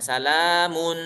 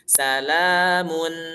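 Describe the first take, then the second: First: The lips stay rounded through the final n. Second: The lips unround once the final n starts. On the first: The speaker calls it wrong. "Jangan salamun" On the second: The speaker calls it right. "Tapi salamun mun"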